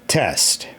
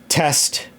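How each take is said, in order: Both takes have the same delivery.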